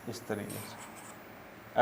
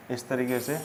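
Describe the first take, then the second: First: Slow, breathy whispered repeat. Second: Said in the usual way. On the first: Shown as a demonstration. Teacher repeats the phrase to students in a slow whisper. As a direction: drop to a whisper, stretching it out slowly.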